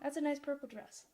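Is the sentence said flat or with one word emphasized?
flat. It is said flat with no word emphasized. "There's no intonations there, right? There's nothing that's being emphasized"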